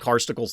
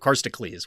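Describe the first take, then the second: First: The E vowel is said short. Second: The E vowel is said long. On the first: The speaker calls it wrong. "I was definitely saying Karstocles the whole time" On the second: The speaker calls it right. "It's a long E"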